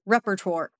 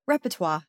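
First: Repertoire said REP-er-tor; American-style repertoire. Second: Repertoire said REP-uh-twah; French-style repertoire. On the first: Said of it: "American English way of saying that". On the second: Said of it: "That's the French way to say it". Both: Shown as a demonstration.

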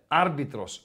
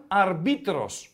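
First: Άρμπιτρος with the stress on the opening ά; stress on first syllable. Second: Αρμπίτρος with the stress moved to μπί; slow demonstration of αρμπίτρος, leaning on the middle; stress on second syllable. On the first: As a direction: lean on ΑΡ in άρμπιτρος, rest falls away. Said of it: "βλέπεις έχει τόνο στο Α". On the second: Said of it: "Αν δεν είχε τόνο". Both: Shown as a demonstration.

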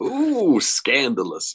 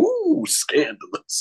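First: Echoed catchphrase. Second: Much higher, slow, drawn-out trailer announcer; movie trailer voiceover. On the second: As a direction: stretch it out like a cheesy film promo. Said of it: "it would just stop and go". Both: Retold or imitated.

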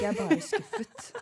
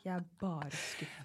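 First: High, slow mock with a laugh; laughing dad line. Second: Disappointed dad. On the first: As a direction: parody the disappointed father, laughing through it. (ler mens hun etterligner en skuffet pappa) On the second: Retold or imitated. (lav, rolig og sakte skuffet pappa)

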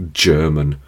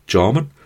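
First: Said in the usual way. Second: Put-on a quick slide into a Geordie accent on "German?"; slip into Geordie. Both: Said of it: "I went slightly Geordie then".

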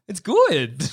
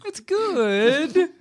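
First: Said in the usual way. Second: "good" sung high and rising; rising bad good. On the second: Shown as a demonstration. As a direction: lift "good" high in a fake cheer. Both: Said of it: "emphasise the word good".

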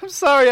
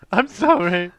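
First: High, loud, squeaky sorry; squeaky apology. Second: Mock apology. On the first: Pretend. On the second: Mocking Dave's apology.

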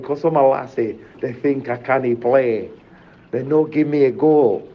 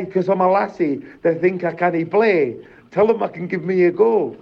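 First: Reflective repeat. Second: Mum's defiant protest, higher; imitating mum. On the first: Real, not acted. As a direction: repeat her words gently, savouring them. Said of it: "You know what I mean?". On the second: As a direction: voice mum standing up for herself, pitched up. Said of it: "And she was like".

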